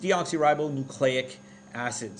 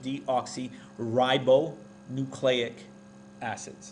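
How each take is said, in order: First: The term is said at normal speed. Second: The term is said slowly, sounded out.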